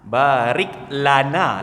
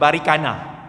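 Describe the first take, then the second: First: The L is clearly pronounced, giving 'barik lana'. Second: The L is dropped, giving 'barikana'. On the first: The speaker calls it right. "lana L A N A" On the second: The speaker calls it wrong. "Anak kita baca barikana"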